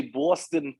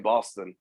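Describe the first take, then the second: First: Boston with a drawn-out local "aw"; Boston accent. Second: Said in the usual way. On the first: Retold or imitated. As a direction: say Boston the Boston way, with a rounded "aw". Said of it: "always have to say Boston like that". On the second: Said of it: "instead of just saying Boston".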